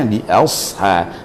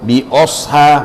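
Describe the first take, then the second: First: The first vowel is an open, unrounded 'a'. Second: The first vowel is a rounded 'o'. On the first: The speaker calls it right. "itu saja bunyi dia ya" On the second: The speaker calls it wrong. "atau bi osha"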